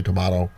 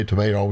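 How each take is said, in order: First: Tomato as tuh-MAH-toh; broad AH in the middle of tomato. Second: Tomato as tuh-MAY-toh; long AY in the middle of tomato. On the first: Teacher joking about pronunciations, tomato said tuh-MAH-toh. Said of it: "and some say tomato". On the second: Teacher joking about pronunciations, tomato said tuh-MAY-toh. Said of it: "some say tomato". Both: Shown as a demonstration.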